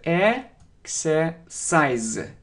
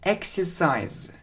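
First: The word is said slowly and drawn out. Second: The word is said at normal speed.

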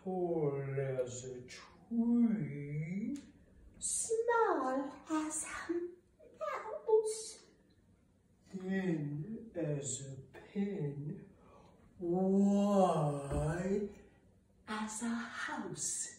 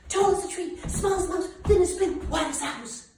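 First: It is said slowly. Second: It is said fast.

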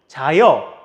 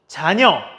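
First: The second syllable begins with a vowel sound. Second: The second syllable begins with an N sound. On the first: The speaker calls it wrong. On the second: The speaker calls it right.

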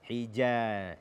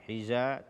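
First: The j sound is hard and stopped. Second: The j sound is soft and flowing. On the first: The speaker calls it right. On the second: The speaker calls it wrong.

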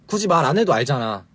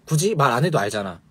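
No difference in how they are said.

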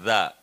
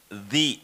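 First: The syllable is said with an 'a' vowel. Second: The syllable is said with an 'i' vowel. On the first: The speaker calls it right. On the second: The speaker calls it wrong.

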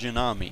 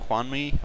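First: The name is said in three syllables, Ju-na-mi. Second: The name is said in two syllables, Juan-mi. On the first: This is a playful personal version of the name. "I'm gonna go with Junami" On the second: This is the player's real name. "his regular name Juanmi"

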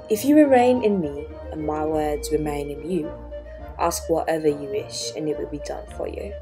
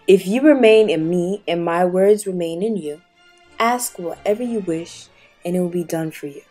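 First: It is read in a put-on British accent. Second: It is read in the speaker's normal accent.

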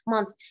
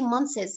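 First: The th sound is left out. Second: The th sound is clearly pronounced. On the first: The speaker calls it right. "don't pronounce TH" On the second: The speaker calls it wrong. "we can never say months"

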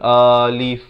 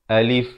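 First: The vowel is drawn out long. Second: The vowel is kept short. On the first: The speaker calls it wrong. "Jangan dipanjangkan. Jangan baca alif" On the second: The speaker calls it right. "Dia kena baca alif. Sempurnakan saja"

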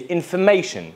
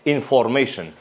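First: The syllable after 'f' has a weak schwa vowel. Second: The syllable after 'f' has a full O vowel. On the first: The speaker calls it right. "In British accent, we always say information" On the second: The speaker calls it wrong. "We don't say information. We don't have O sound here"

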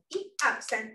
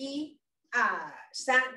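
First: The counts run together without any pauses. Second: The counts are separated by short pauses. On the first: The speaker calls it right. "没有停顿，就变成一二三" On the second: The speaker calls it wrong. "实际上是有一个停顿"

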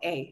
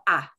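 First: The vowel sounds like 'ay'. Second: The vowel sounds like an open 'ah'. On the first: The speaker calls it wrong. "it's not called A" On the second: The speaker calls it right. "It's called ah"

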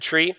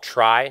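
First: The vowel sounds like the ee in see. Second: The vowel sounds like the eye in my. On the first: "he says the correct way to pronounce it is tree" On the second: "Sometimes you hear it called try"

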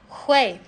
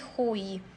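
First: The ending sounds like 'uei', with an e-glide. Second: The ending sounds like a plain 'ui' glide. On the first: The speaker calls it right. "to nie czytamy jako UI, tylko takie łej" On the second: The speaker calls it wrong. "nie hui"

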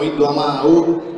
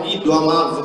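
First: The verb ends with a vowel u sound. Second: The verb ends with a consonant v sound. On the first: The speaker calls it right. "ma diciamo Iddu amau" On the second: The speaker calls it wrong. "noi non diciamo Iddu amav"

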